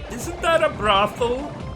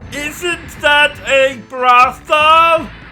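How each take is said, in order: First: It is said at a normal, quiet volume. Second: It is said noticeably louder.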